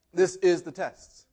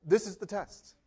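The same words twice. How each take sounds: First: Slow, with a firm stress on "is"; emphatic stress. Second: Said in the usual way. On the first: Real, not acted. Preacher drives the point home to congregation, emphatic stress on "is". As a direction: lean on "is" and space the words out. Same line repeated for emphasis.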